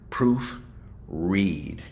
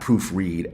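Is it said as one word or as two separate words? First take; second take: two words; one word. First: It is split into two separate words. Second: It runs together as a single word. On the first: It is the show's own special name. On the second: It is the ordinary word for checking text.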